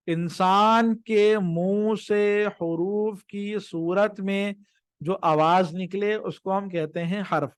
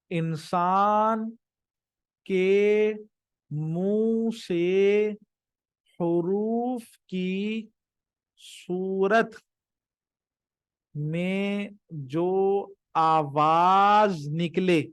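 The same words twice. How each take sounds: First: Said in the usual way. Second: Very slow, drawn-out words with pauses; teacher spelling out a definition at dictation speed. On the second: Shown as a demonstration. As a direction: dictate it slowly, stretching each word.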